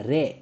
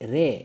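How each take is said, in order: First: The vowel is a long 'e', like 'ray'. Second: The vowel is a long 'e', like 'ray'.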